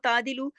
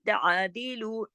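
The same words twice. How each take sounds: First: The throat consonant 'ain' is dropped entirely. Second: The throat consonant 'ain' is clearly pronounced. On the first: The speaker calls it wrong. "ऐन तो स्किप हो जाएगा ना" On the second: The speaker calls it right. "ऐन को जमाओ के साथ"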